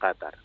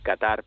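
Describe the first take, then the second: First: The name is said the Arabic way. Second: The name is said the common Spanish way. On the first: This is how it is said in Arabic. The speaker calls it right. "en árabe la pronunciación correcta sería efectivamente Qatar" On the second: This is how most people say it. The speaker calls it wrong. "la gente viene a decir Qatar"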